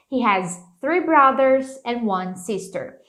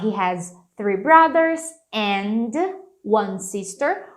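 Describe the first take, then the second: First: "and" linked as "an" into "one"; and with dropped d. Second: "and" said fully with its d; and fully marked. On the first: Teacher showing a dropped d for easy speech. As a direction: drop the d, "an one". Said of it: "sumir com esse D". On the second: Teacher modelling a clear "and" for students. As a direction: pronounce "and" clearly with the d. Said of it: "Aqui você pode marcar o and". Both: Shown as a demonstration.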